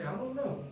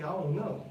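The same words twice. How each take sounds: First: I DON'T KNOW softly with the D still there; soft, higher "I don't know" with a light D; informal, D kept. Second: I DON'T KNOW as "I'on know"; informal, D dropped. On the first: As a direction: say "I don't know" casually but sound the D. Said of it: "when you talk informally". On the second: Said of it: "You might say". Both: Shown as a demonstration.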